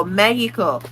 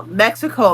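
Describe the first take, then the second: First: "Mexico" as "MEH-hee-ko", Spanish-style; Spanish pronunciation. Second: Said in the usual way. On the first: Retold or imitated. Mocking non-speakers' pronunciation, Spanish accent. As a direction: put on a Spanish "Mexico", X as breathy H. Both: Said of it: "pronouncing it the way that your accent".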